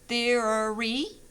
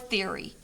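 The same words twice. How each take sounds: First: The word is said with three syllables. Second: The word is said with two syllables. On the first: "this shows three syllables" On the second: "this one shows two"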